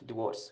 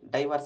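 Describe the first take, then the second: First: The first syllable is 'dih' with a short vowel. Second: The first syllable is 'dye' with a long vowel. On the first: The speaker calls it right. "డివోర్స్ అని పలకాలి" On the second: The speaker calls it wrong. "చాలామంది దీన్ని డైవర్స్ అంటుంటారు. It's totally wrong"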